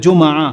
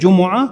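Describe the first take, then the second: First: The m is followed by no vowel. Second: The m is followed by a u vowel. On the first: "সাকিন দিয়েও পড়া যায়" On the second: "মিমের উপরে পেশ দিয়ে জুমুআ"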